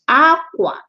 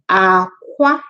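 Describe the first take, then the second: First: It has the tone pattern meaning cloth. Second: It has the tone pattern meaning egg. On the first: It means cloth. "While that one is aqua. Aqua, so cloth" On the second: It means egg. "pay attention to the way I say it because that's what will differentiate them. Aqua is egg"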